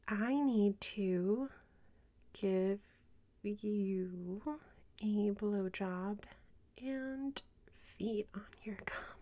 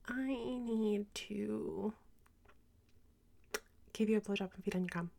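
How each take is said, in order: First: It is said slowly. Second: It is said fast.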